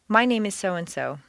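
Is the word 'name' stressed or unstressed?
unstressed. The word 'name' carries no special stress. It is a simple introduction. The speaker calls it right. "stay with the standard"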